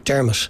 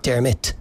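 First: The middle consonant sounds like an sh. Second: The middle consonant is a clear plosive T. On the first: "like someone from South County Dublin might say" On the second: "there's a plosive consonant there, a T, so it would be Dermot"

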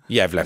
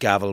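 First: It is said with the Swedish pronunciation. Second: It is said like the English word gavel. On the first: "there's probably a Swedish way of saying gavel" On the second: "I've always said gavel"

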